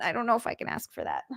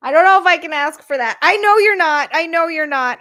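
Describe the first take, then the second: First: Softer, fast, unsure of yourself; hesitant murmur. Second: Higher, louder, fast, overwhelmed; emphatic protest. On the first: Streamer to Frank, softly doubting she can accept. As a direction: mutter it like you can barely ask. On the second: Streamer to Frank, protesting loudly that she can't accept. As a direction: blurt it out, flustered by the kindness. Hesitating over Frank's offer. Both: Real, not acted.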